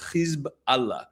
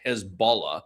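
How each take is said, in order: First: The name is split into two words. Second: The name runs together as one word. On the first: The speaker calls it right. "It's really two words" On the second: The speaker calls it wrong. "I don't like pronouncing it Hezbollah the way many people do in Western media"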